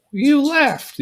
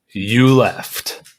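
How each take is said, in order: First: Much higher cartoon bear voice, half-joking; Pooh voice. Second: Said in the usual way. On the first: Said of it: "the Pooh voice". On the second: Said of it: "and says".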